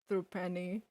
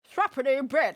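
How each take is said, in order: First: It is said in the speaker's plain character voice. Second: It is said in a put-on British accent.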